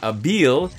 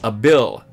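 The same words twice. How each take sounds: First: The second vowel is not like 'bill'. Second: The second vowel sounds like 'bill'. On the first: The speaker calls it wrong. "It's not Abil" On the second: The speaker calls it right. "The I is pronounced like it is said in the word Bill"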